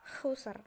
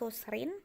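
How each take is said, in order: First: The word ends on the bare final consonant. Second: The word ends with a vowel plus n. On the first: The speaker calls it right. "tetapi jadi khusr" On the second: The speaker calls it wrong. "Jadi bukan lagi khusrin"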